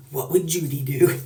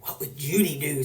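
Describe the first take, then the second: First: Said in the usual way. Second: Hushed, voiceless whisper; whispered slogan. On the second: Retold or imitated. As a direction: whisper it like a secret joke. Kids' whispered joke slogan.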